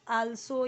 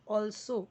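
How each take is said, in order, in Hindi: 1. यह लंबे खुले aa स्वर से शुरू होता है। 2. यह गोल किए हुए aw स्वर से शुरू होता है। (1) "आल्सो या अल्सो नहीं"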